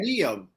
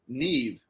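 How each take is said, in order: First: The name ends with an M sound. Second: The name ends with a V sound. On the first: The speaker calls it wrong. "It's not" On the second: The speaker calls it right. "apparently it's pronounced Neve, like N E E V"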